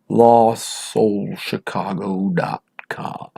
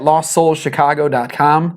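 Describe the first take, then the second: First: It is said slowly and deliberately. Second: It is said at a normal, quick pace.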